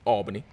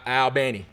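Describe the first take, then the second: First: It is pronounced like the New York city. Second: It is pronounced unlike the New York city. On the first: This is the name of the city in New York. The speaker calls it wrong. "Not like New York, not like the city" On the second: This is the name of the school's town. The speaker calls it right.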